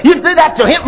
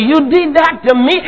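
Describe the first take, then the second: First: "him" weighted, the wrong version; stress on him. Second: "me" pressed, rising end; stress on me. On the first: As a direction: lean on "him" to show the contrast. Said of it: "He doesn't say". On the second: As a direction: hit "me" as the victim. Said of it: "No, me". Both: Shown as a demonstration.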